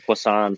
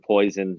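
First: It is said with a French-like pronunciation. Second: It sounds like the English word poison. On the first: The speaker calls it right. "That was basically French" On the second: The speaker calls it wrong.

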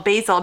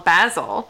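First: It is said in an American accent. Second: It is said in a British accent.

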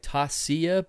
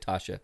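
First: The middle sounds like 's' followed by 'y'. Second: The middle sounds like a quick 'sh'. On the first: "I think it's like Tasya" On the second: "they pronounce it so fast. It's like Tasha"

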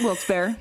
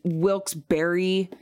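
First: The name is said with two syllables. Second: The name is said with three syllables. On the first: This is the speaker's own habitual pronunciation. "So I always take the second syllable out" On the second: This is the generally accepted pronunciation. "I know it's Wilkes-Barre"

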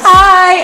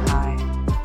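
First: It is said loudly and over-excitedly. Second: It is said quietly and calmly.

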